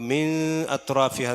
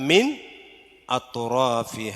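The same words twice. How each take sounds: First: The n is blurred into the next sound. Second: The n is pronounced clearly and distinctly. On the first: The speaker calls it wrong. "എന്നില്ല" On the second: The speaker calls it right. "നൂനിനെ ഇൽഹാർ ചെയ്യണം"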